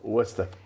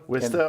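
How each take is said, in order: First: The first vowel sounds like 'oh'. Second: The first vowel sounds like 'ih'. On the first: "It's either an I or an O sound" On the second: "It's either an I or an O sound"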